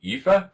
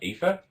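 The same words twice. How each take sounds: First: "Aoife" said YOO-fuh, high and questioning; raised second guess at "Aoife", pronounced YOO-fa. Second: "Aoife" said EE-fuh, questioning; unsure guess at "Aoife", pronounced EE-fa. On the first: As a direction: try "Aoife" with a you sound at the start. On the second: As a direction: try "Aoife" with a long ee at the start. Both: Shown as a demonstration. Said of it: "I think it's, like".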